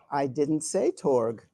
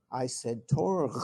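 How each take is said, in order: First: Said in the usual way. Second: Torg said the Klingon way, softened toward Dorg; Klingon pronunciation. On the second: Shown as a demonstration. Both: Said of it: "I said it in Klingon".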